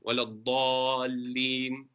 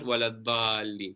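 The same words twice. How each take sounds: First: The d sound is heavy and elevated. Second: The d sound is light and flat. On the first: The speaker calls it right. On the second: The speaker calls it wrong.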